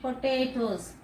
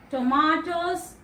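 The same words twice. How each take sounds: First: Potatoes with A as "ay", "po-TAY-tos"; long A. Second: Tomatoes with A as "ah", slowed; broad A. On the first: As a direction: say potatoes with "ay" in the middle. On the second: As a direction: stress the "mah" in Tomatoes. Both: Shown as a demonstration. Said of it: "A is pronounced as a".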